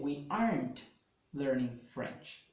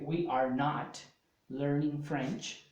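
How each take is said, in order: First: The words are not are contracted into aren't. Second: The words are not and are said separately.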